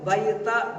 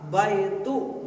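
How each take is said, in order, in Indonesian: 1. Kata itu berakhir dengan vokal 'a'. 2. Kata itu berakhir dengan vokal 'u'. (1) "Gak boleh baita baiti" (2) "pasti dibaca dom, domah"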